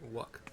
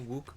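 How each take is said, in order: First: The first syllable has a short u vowel. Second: The first syllable has a long oo vowel. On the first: This is how everyone else pronounces it. "everybody else is pronouncing it Wuk" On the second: This is the speaker's own pronunciation. "I'll pronounce it Wook"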